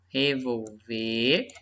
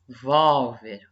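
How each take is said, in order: First: The stress is on the last syllable. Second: The stress is on the second-to-last syllable. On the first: It is a verb meaning to turn over. "Essa aqui é a última sílaba" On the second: It is a noun naming a handgun. "essa daqui é a penúltima"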